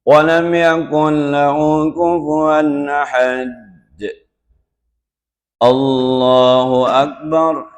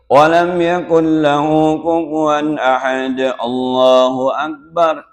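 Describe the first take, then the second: First: A short pause comes before Allahu Akbar. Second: Allahu Akbar follows with no pause. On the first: The speaker calls it right. "dijedah sedikit. ... Itu idealnya" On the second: The speaker calls it wrong. "Bukan begini"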